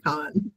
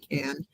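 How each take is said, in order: First: The vowel is an open ah sound. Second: The vowel is a flat a, as in cat. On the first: This is the technically correct form. "I think it is technically con" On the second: This is how Americans say it. "I've heard Americans say can"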